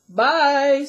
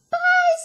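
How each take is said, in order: First: It is said in a great big voice. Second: It is said in a teeny tiny voice.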